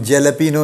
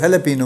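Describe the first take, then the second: First: جیلاپینو with a hard English j at the start; English jalapeño. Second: ہیلاپینو with the j softened to an h; Spanish jalapeño. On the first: Teacher contrasting English spelling with Spanish, English j pronunciation. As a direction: say جیلاپینو the English way, opening on a j sound. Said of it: "جس کو ہم جیلاپینو لکھتے ہیں". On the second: Teacher showing how Spanish speakers say it, Spanish h sound. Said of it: "وہ ہیلاپینو بولتے ہیں". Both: Shown as a demonstration.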